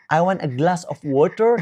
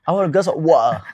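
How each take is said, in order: First: Said in the usual way. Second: Hammed-up British accent, loud, swallowing the end of "water"; British glottal "water", cut to "wa'a"; mock British accent. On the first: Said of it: "the hardest accent, I think it's British". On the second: Interviewee mocks hard-to-follow British speakers, exaggerated British accent. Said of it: "They say".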